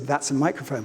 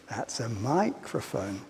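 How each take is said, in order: First: It is said with a plain, adult melody. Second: It is said with an exaggerated, childlike melody.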